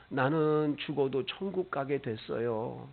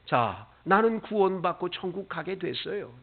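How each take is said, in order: First: Put-on soft child's words. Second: Said in the usual way. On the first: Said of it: "우는 거예요".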